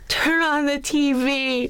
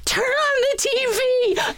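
First: It sounds serious and shocked. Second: It sounds thrilled and pleased.

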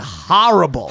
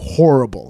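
First: The first part sounds like the word horror. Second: The first part is said plainly, not like horror. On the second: "Gentiles go horrible"

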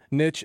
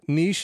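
First: The word is said the American way. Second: The word is said the British way. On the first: "niche is the American English version" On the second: "niche is the common British version"

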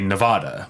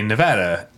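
First: It uses the outsider pronunciation of the middle vowel. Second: It uses the local pronunciation of the middle vowel. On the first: This is how most people from elsewhere in the country say it. The speaker calls it wrong. "from the Midwest to the East Coast say Nevada" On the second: This is how the people who live there say it. The speaker calls it right. "Nevadans say Nevada"

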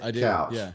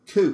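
First: The vowel sounds like 'ow' as in cow. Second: The vowel sounds like 'oo' as in moo. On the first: This is the usual pronunciation. "you pronounce it couch" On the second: This is how locals in one city say it. "in Portland, couch, that word is pronounced cooch"

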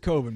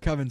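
First: The name does not rhyme with oven. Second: The name rhymes with oven. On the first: The speaker calls it right. "he says Coven" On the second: The speaker calls it wrong. "Coven sounds like oven"

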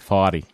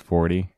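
First: It is said in a New England accent. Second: It is said in a plain accent.

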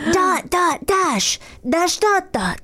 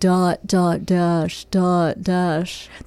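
First: It is said in a cute voice. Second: It is said in a bored girl's voice.

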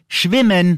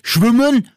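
First: The word is said with standard German pronunciation. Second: The word is said with a regional dialect pronunciation. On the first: The speaker calls it right. "sondern schwimmen" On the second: The speaker calls it wrong. "Nicht schwimmen"

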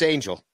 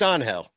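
First: The name is pronounced the English way. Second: The name is pronounced the Spanish way. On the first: "If I say it in English" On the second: "if I say it in Spanish"

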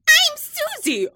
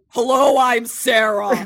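First: A young, fresh newcomer's voice. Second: A seasoned, older old-timer's voice.

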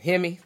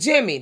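First: The name is read with a non-American pronunciation. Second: The name is read with an American pronunciation. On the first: The speaker calls it right. "No, that's not it" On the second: The speaker calls it wrong. "That's because the American jumped out"

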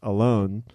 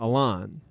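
First: The name sounds like the English word alone. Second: The second syllable sounds like lawn. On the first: The name sounds like being lonely. The speaker calls it wrong. "it was pronounced Alone" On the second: This version steers listeners away from alone. The speaker calls it right. "like a lawnmower"

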